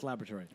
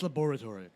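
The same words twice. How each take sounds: First: It is said in an American accent. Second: It is said in an English accent.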